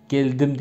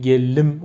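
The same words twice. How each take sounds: First: Said in the usual way. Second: "gellim", the d melted into a long l; dialect assimilation. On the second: Shown as a demonstration. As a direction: say "gellim" with a doubled l in place of ld. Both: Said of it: "Geldim değil, gellim olurdu".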